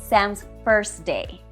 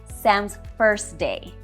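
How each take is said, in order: Both takes have the same delivery.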